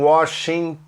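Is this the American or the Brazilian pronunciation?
American. It is said with an American pronunciation. The speaker calls it right. "Eles falam"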